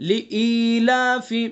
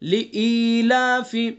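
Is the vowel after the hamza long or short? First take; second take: long; long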